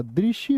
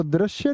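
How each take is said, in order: First: दृश्य said "drishya", with a short i; correct pronunciation. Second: दृश्य said "drashya", with an a; wrong pronunciation. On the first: Teacher correcting students, दृश्य said as drishya. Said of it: "दृश्य होता है". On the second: Teacher showing students the error, दृश्य said as drashya. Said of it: "दृश्य नहीं होता". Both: Shown as a demonstration.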